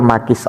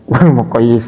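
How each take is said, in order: First: It has two syllables with a long i. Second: It has three syllables with a doubled y. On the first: The speaker calls it right. "Tapi bukan muqayyis dan muqayyis alaih" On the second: The speaker calls it wrong. "padahal bacanya bukan seperti itu"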